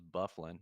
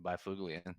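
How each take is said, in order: First: The name is said the way its owner says it. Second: The name is read out letter by letter, phonetically. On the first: The speaker calls it right. "Bufflin's a good play" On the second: The speaker calls it wrong. "I always pronounce it just phonetically"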